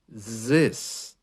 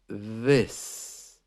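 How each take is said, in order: First: It begins with a buzzing z sound. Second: It begins with a soft th sound. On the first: The speaker calls it wrong. "they just go to the letter Z" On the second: The speaker calls it right. "So we're looking for th"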